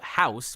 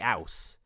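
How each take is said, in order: First: The H at the start is pronounced. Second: The H at the start is dropped. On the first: "instead of house" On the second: "H we sometimes do, ... we'd say ouse"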